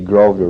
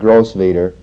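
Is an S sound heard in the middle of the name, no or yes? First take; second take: no; yes. First: The name is said without an S sound. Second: The name is said with an S sound. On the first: The speaker calls it right. "don't pronounce the S over here" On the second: The speaker calls it wrong. "It's not Grosvenor"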